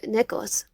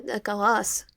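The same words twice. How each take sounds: First: Nicholas with a short, unstressed "-las"; first pronunciation. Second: Nicholas with an open "-lahs" ending; alternative pronunciation. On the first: Asking a friend how his name is said, first pronunciation of "Nicholas". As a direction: say "Nicholas" with a reduced final vowel. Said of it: "I thought it was". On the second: Offering a friend another version of his name, open-ended "Nicholas". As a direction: say "Nicholas" ending in a full "ah" vowel. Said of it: "pronounce your full name". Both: Acted.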